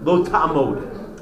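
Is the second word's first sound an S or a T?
T. The second word begins with a T sound.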